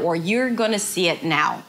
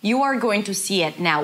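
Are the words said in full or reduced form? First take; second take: reduced; full. First: The words are reduced and run together. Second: Each word is said fully and separately. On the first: "That's the rhythm, that's the melody" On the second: "it is different than you are going to see it now"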